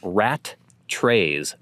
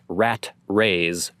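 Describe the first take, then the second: First: Both t sounds are pronounced, rat then trays. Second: Only the first t is pronounced, rat rays. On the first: The speaker calls it right. "So like saying rat trays" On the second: The speaker calls it wrong. "not rat rays"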